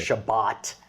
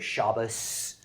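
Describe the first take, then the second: First: It ends with a t sound, Sephardic style. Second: It ends with an s sound, Ashkenazi style.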